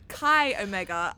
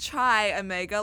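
First: The first word does not sound like 'chai'. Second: The first word sounds like the drink 'chai'. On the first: The speaker calls it right. "It is actually Chi Omega" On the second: The speaker calls it wrong. "It is not Chi Omega like a chai latte"

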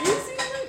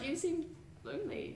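First: It is said loudly, like an announcement. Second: It is said quietly, not announced.

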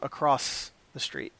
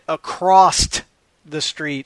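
First: Across is said without any T sound. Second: Across is said with an added T sound. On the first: The speaker calls it right. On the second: The speaker calls it wrong.

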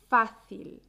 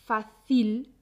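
First: The stress is on the first syllable. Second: The stress is on the second syllable. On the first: The speaker calls it right. "La sílaba fuerte es fa" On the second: The speaker calls it wrong. "Muchos y muchas estudiantes pronuncian fácil en lugar de fácil"

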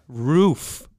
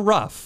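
First: The word is said with a long 'oo' vowel. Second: The word is said so it sounds like 'rough'. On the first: This is the speaker's own pronunciation. The speaker calls it right. "Roof. It's a roof" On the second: This is how Midwesterners and Southerners say it. The speaker calls it wrong. "Not a rough"

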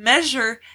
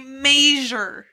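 First: It is said with the usual standard pronunciation. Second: It is said with a Utah-Idaho regional pronunciation. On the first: "instead of saying measure" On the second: "people in Utah and people in Idaho... they say measure"

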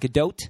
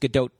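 First: The final T is clearly released. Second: The final T is stopped short. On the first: The speaker calls it wrong. "It's not Gadot" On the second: The speaker calls it right. "You stop with it"

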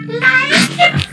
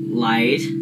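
First: It is said in a put-on voice. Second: It is said in a normal voice.

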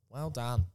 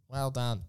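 No difference in how they are said.

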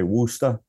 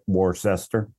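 First: It is said short, with no r sounds. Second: Every written syllable is sounded out. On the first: The speaker is a local from the region. "If you're from Boston, you'll just say Worcester" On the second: The speaker is an outsider to the region. "phonetically try to make it Worcester"

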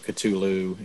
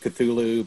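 First: The name is said with harder sounds. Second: The name is said with softer sounds. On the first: "the harder" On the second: "I've always gone with Cthulhu"

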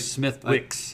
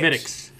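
First: It is said with clear 'th' and 'w' sounds. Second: It is said without 'th' or 'w' sounds. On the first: The speaker calls it wrong. "I don't say Smith Wicks" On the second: The speaker calls it right. "And you say it the right way"

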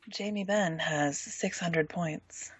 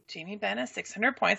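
First: It is said in a low, sultry voice. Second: It is said in an ordinary speaking voice. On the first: The speaker calls it right. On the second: The speaker calls it wrong.

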